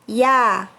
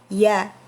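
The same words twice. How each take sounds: First: The ya sound is thin and light. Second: The ya sound is thick and heavy. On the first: "huruf ini merupakan huruf tipis" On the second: "huruf y orang Indonesia itu terdengar tebal"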